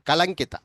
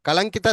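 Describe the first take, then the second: Both takes have the same delivery.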